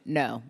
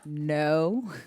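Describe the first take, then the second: First: The no is said with strong conviction. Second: The no is said without much conviction.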